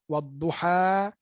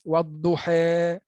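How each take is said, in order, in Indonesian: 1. Vokal akhirnya adalah a terbuka. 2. Vokal akhirnya berada di antara a dan e. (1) "baris atas" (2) "baris taklil"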